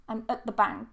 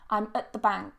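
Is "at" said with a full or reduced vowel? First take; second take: reduced; reduced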